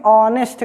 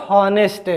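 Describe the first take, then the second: First: "ऑनेस्ट" opening on the o vowel, no H; silent H. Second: "हॉनेस्ट" with a pronounced H in front; wrongly sounded H. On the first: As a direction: leave the H off "ऑनेस्ट". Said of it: "आप इसको कभी मत कहिएगा हॉनेस्ट". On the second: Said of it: "कभी मत कहिएगा". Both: Shown as a demonstration.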